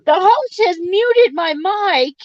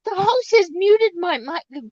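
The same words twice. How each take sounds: First: Loud, high-pitched mock announcement; loud high complaint. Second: Loud high complaint, rising. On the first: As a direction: belt it out like a protest. Complaining loudly, mock robot line. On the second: Acted. Repeated, rising end.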